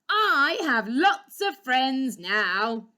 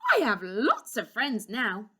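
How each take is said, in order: First: It is said very loudly. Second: It is said at a normal, quiet volume.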